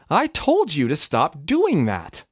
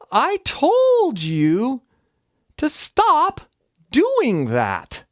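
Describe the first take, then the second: First: The phrase is said somewhat slowly. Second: The phrase is said very slowly. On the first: "If I'm slowing that down" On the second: "What if I really slowed it down"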